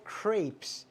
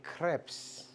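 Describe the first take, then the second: First: The word is said with an English pronunciation. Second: The word is said with a French pronunciation. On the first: The speaker calls it wrong. "They're not called" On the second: The speaker calls it right. "That's French"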